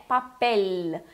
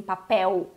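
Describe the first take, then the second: First: "papel" slow, ending on a held L; tongue-tip L. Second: "papel" as pa-PÉU, final U; Portuguese pronunciation. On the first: Teacher corrects the Portuguese habit, tongue-tip L. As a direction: stretch "papel" onto a clear final L. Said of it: "aquele L com a língua". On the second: Teacher quotes the Brazilian habit, Portuguese U ending. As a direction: end "papel" on U instead of L. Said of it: "a gente faz no português". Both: Shown as a demonstration.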